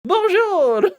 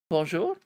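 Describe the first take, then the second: First: Much higher and much louder, a shrill little bird cry; squeaky bird bonjour. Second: Said in the usual way. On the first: Acted. The French bird answers Alice, shrill and high. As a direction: chirp it back like a tiny excited French bird. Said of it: "like a French bird". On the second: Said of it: "Perhaps it spoke French".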